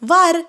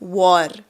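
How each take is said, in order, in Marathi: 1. स्वर हा उघडा 'ah' आवाज आहे. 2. स्वर हा गोलाकार 'aw' आवाज आहे. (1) "नियमानुसार वार पाहिजे ना" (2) "याचा उच्चार काय होतो? वॉर"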